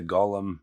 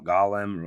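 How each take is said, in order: First: Golem with a long O, GOH-lum. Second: Golem with an open first vowel, GAH-lum. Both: Shown as a demonstration. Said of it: "or however you wanna say it".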